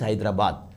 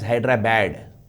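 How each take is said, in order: First: It is said in the local, non-anglicized way. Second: It is said anglicized, sounding like 'Hydra-bad'. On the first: "A Telanganite will pronounce Hyderabad as Hyderabad" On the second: "in Andhra, they call it as Hyderabad"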